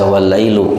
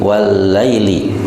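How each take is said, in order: First: The word ends with an 'oo' vowel. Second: The word ends with an 'ee' vowel. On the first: The speaker calls it wrong. "tidak boleh dibaca wal-lailu" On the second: The speaker calls it right. "itu menjadi wal-laili"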